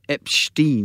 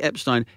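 First: The name is said with a Jewish-sounding pronunciation. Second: The name is said in the ordinary way.

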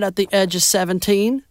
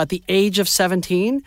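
First: It is spoken in a Southern American accent. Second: It is spoken in a plain, neutral accent. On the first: The word age sounds like edge. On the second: The word age is heard as age.

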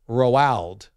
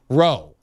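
First: It sounds like Ronald without the n. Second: It sounds like the short word roe. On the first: "like Ronald, Roald without the N" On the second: "Just Roe"

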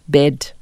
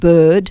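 First: The vowel is a short 'eh' sound. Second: The vowel is a long 'er' sound. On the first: "We're going to substitute that with" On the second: "the sound for Nguni speakers is really difficult"

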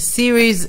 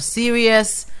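First: It is pronounced like 'series', ending in z. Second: It is pronounced like 'serious', ending in -us. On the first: The speaker calls it right. "זה סיריז X ו-S" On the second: The speaker calls it wrong. "ולא סיריאס"

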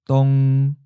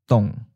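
First: The pitch stays mid and level. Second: The pitch starts mid and falls. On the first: "Seventh tone, mid flat" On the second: "Third tone, mid falling"

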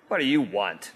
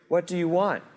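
First: The question sounds impatient and annoyed. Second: The question sounds warm and gently inquiring. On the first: He is bothered by people following him. The speaker calls it wrong. "of course it's not the latter" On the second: He sincerely asks what they are seeking. The speaker calls it right. "now what's the inflection of his voice here"

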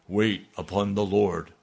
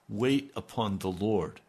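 First: The words are spoken in a grand, commanding voice. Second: The words are spoken in a plain, ordinary voice.

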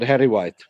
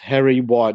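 First: The name is run together as one word. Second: The name is said as two separate words. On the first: The speaker calls it wrong. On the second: The speaker calls it right.

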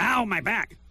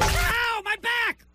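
First: It sounds fake and half-laughing, not real. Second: It sounds like a real cry of pain.

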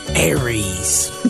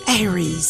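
First: The voice is low and deep. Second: The voice is raised and high. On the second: "Just up at an octave"

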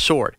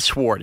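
First: The W sound is silent in the word. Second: The W sound is pronounced in the word. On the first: The speaker calls it right. "The W is silent" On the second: The speaker calls it wrong. "So it's not sword"

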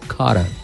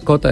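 First: The name is said with an English accent. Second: The name is said with a Spanish accent. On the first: The speaker calls it right. "se lo pronuncio en inglés" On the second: The speaker calls it wrong. "no es Cota"

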